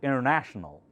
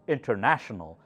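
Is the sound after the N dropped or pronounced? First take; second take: dropped; pronounced. First: The sound after the N is dropped. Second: The sounds after the N are fully pronounced. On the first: The speaker calls it wrong. "do not pronounce this um, N before T, so it sounds like international" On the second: The speaker calls it right. "You should try to say international, pronounce that N"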